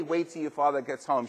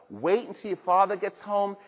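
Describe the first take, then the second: First: Said in the usual way. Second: Slightly raised, warning mom voice; a hint of a mother threatening her kids; mother's warning. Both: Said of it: "Your mother didn't have to say".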